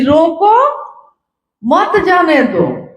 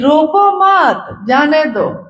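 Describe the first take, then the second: First: The pause comes after रोको. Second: The pause comes after मत.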